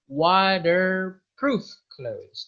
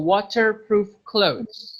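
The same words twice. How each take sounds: First: The t in water sounds like a d. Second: The t in water is a clear t. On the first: "if it is American, we do not say T, we say D" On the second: "if you prefer to be British... you could just say with T"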